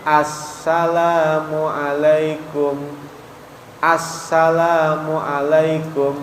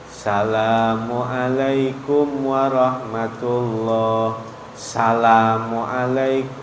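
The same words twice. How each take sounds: First: Slow chant, "Assalamualaikum" opening on a clear As; salam with "as". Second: Slow level salam, "Assalamualaikum" clipped to "salamualaikum"; salam without "as". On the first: Ustadz showing the required salam, "Assalamualaikum" with As sounded. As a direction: chant "Assalamualaikum" with full as- and doubled s. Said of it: "Nggak pakai". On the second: Ustadz showing the faulty salam, "Assalamualaikum" minus its as-. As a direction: chant "Assalamualaikum" starting straight at sa, no as-. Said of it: "nggak pakai as". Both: Shown as a demonstration.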